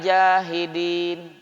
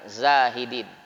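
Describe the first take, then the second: First: The word begins with a j sound. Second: The word begins with a z sound. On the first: People who deny the faith. The speaker calls it wrong. "Kalau bacanya tidak fasih" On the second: People who renounce worldly things. The speaker calls it right. "Zai, alif, ha, dal, ya, nun"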